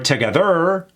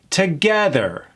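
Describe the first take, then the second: First: The stress falls on another syllable. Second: The stress falls on the second syllable. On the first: The speaker calls it wrong. "Not together or together" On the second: The speaker calls it right. "Emphasis on the eh"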